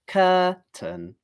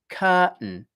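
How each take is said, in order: First: Both syllables are said fully with a clear t. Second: The t and following vowel are reduced before n. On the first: "The first syllable is cur, second syllable is tun" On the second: "most native English speakers ... pronounce it like this"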